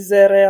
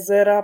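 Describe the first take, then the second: First: The word ends with an 'e' vowel. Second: The word ends with an 'a' vowel. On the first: The speaker calls it wrong. "A není zere" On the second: The speaker calls it right. "ale je zera"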